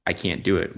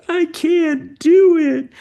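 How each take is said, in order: First: Said in the usual way. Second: Imitating a child's much higher, much louder frustrated wail, drawn out slowly. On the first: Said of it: "If she says". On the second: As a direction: wail it like a little girl giving up at the piano, slow. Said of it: "she slams her hands down on the piano".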